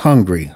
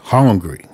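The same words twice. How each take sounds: First: The first vowel is the usual 'u' sound. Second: The first vowel sounds like an 'o'. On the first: Ordinary hunger. "Not hungry" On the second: Desperate hunger, with no money left at all. "with an O"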